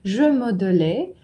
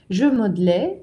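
First: The middle 'e' vowel is clearly pronounced. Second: The middle 'e' vowel is dropped. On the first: "Но давайте сначала медленно прочтем" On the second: "Теперь попроще"

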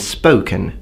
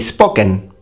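First: The O is a gliding double vowel. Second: The O is a single pure vowel. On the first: This is how an English speaker says it. "rather than spoken" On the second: This is how an Italian speaker says it. "An Italian would say spoken"

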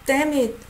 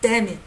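First: The words are said in a light, mild tone. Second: The words are said in a harsh, aggressive tone. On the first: The speaker is only slightly annoyed, like saying oops. "This is like a, oh, damn it" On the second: The speaker is really angry. "not as aggressive as when you say, damn it"

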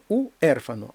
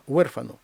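First: The stress falls on the closed vowel u. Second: The stress falls on the open vowel e. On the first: The speaker calls it wrong. "Не уерфано" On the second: The speaker calls it right. "а уерфано. І наголошений склад"

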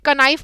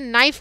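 First: A K sound is pronounced at the start. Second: The word starts directly with an N sound. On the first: The speaker calls it wrong. "क्या इसे कनाइफ बोला जाता है? नहीं" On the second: The speaker calls it right. "इसे नाइफ बोला जाता है, के साइलेंट होता है"

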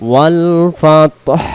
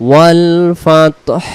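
Both takes have the same delivery.

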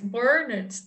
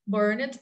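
First: It is said as the British form, burnt. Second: It is said as the American form, burned. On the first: "is British English" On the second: "American English"

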